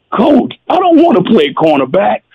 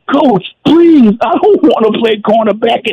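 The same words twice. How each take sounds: First: Quick, lightly tearful plea; hint of a crying player pleading with coach; mock tearful protest. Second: Hammed-up sobbing plea to the coach; crybaby plea. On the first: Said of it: "geez, I cried". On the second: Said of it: "I'm crying like I'm a baby".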